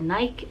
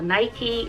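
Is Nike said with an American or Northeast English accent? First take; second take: Northeast English; American. First: It is said in a Northeast English accent. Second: It is said in an American accent.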